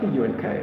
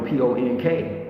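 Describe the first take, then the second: First: The vowel sounds like the 'u' in 'cup'. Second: The vowel sounds like the 'o' in 'pond'. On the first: It is the standard way of saying it. "For those who are grammatically correct" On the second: It is the neighborhood way of saying it. "That's how we pronounce it"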